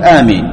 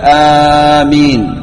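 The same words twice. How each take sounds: First: The first vowel is kept short. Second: The first vowel is drawn out long. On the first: The speaker calls it wrong. "هذا القصر" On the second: The speaker calls it right. "تقول آمين بالمد"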